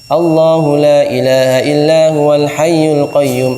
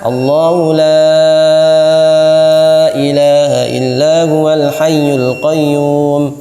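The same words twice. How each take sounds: First: The vowel of 'la' is held briefly, two beats. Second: The vowel of 'la' is held longer, four beats. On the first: This follows one reciter's tradition. "lahnya dua harokat" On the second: This follows the speaker's own tradition. "empat harokat"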